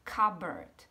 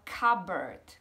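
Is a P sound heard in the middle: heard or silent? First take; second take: silent; silent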